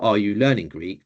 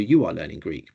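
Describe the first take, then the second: First: Are you learning Greek said with a rise at the end; rising question on learning Greek; question tune. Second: You are learning Greek said falling at the end, lower; falling statement on Greek; statement tune. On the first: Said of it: "the Greek sentence would look the same". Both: Shown as a demonstration.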